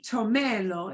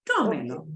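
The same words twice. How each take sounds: First: The stress is on the second syllable. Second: The stress is on the first syllable. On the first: The speaker calls it wrong. "it won't be tomelo" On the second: The speaker calls it right. "it's tomelo ... I would still pronounce it as tome"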